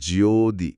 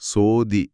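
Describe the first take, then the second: First: The word begins with a voiced J sound. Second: The word begins with a soft S sound. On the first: "ஜோ அப்படின்னு சொல்லும்போது அடி வயிற்றுல... ஒரு pressure உருவாகி" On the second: "சோதி அப்படிங்கிற தமிழ் வார்த்தை"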